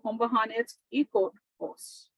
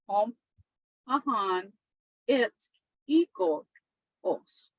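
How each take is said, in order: First: It is said quickly, in one run. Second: It is said slowly, in separate parts.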